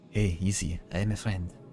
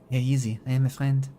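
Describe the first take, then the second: First: The voice is at a lower pitch. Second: The voice is at a higher pitch.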